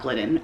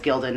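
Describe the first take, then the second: First: The name is said as Glid-den. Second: The name is said as Gil-dan. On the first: The speaker calls it wrong. "not Glidden" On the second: The speaker calls it right. "I think it's Gildan"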